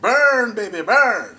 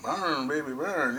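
First: It is said loudly and energetically. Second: It is said softly and quietly.

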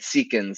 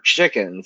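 First: The word begins with an s sound. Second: The word begins with a ch sound. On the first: "it's that for chickens instead of the CH sound" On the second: "instead of the CH sound"

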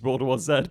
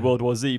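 First: The last letter is pronounced 'zed'. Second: The last letter is pronounced 'zee'. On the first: It follows the British way of saying it. "for us, it's World War Z, but it just sounds wrong when we say that" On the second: It follows the American way of saying it. "because it is an American movie, so maybe you should probably say World War Z"

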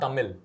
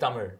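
First: The word ends with a plain L sound. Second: The word ends with an R-like zh sound. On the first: The speaker calls it wrong. "It's not T-A-M-I-L. It's not Tamil" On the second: The speaker calls it right. "ZH written and you have to pronounce it as R"

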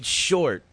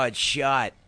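First: It is said in a general accent, with the r. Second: It is said in a Boston accent, without the r.

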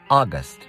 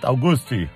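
First: The word ends cleanly on the final consonant. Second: The word ends with an added vowel sound. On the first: The speaker calls it right. "Pay attention to the pronunciation. Listen and repeat" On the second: The speaker calls it wrong. "it's not Augusti"

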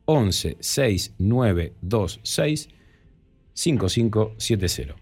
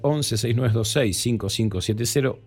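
First: The number is said at a slower pace. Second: The number is said at a quicker pace.

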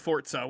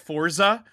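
First: The word is said with its original, elegant pronunciation. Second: The word is said with an Americanized pronunciation. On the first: "which is the correct pronunciation" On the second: "We're reverting back to America"

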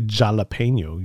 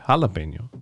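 First: It begins with an English j sound. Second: It begins with an h sound. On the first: The speaker calls it wrong. "You don't say jalapeno" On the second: The speaker calls it right. "You say jalapeno"

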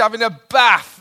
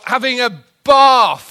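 First: It is said in a northern English accent. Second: It is said in a London accent.

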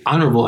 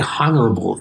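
First: The h at the start is silent. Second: The h at the start is pronounced. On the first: The speaker calls it right. "You say honorable" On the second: The speaker calls it wrong. "you don't say honorable"

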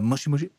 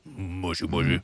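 First: It is said in a normal voice. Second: It is said in a deep voice.

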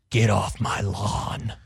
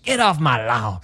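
First: It is said in a deep, gruff voice. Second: It is said in a normal voice.

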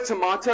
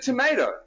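First: It is said with a British pronunciation. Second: It is said with an American pronunciation. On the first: This is the old way the speaker used to say it. "It's not a tomato" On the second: This is the new way the speaker has adopted. "it's a tomato"

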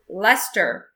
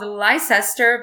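First: It is said short, with two syllables. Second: It is said letter by letter, three syllables. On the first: This is how it is supposed to be said. "but I'm supposed to pronounce it Leicester" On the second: This is how the spelling suggests it is said. "You have places in the UK called Leicester"

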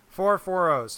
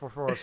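First: It is said at a slower pace. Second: It is said at a fast pace.

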